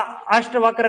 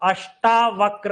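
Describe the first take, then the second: First: The middle syllable has a short 'a'. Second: The middle syllable has a long 'aa'. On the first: The speaker calls it wrong. "अष्टवक्र नहीं होता है" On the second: The speaker calls it right. "अष्टावक्र होता है"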